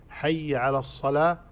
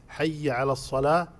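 The two takes are said the same way.

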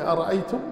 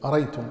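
First: The second glottal stop is pronounced. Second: The second glottal stop is dropped.

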